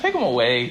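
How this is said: It is said in a nicer, gentle way.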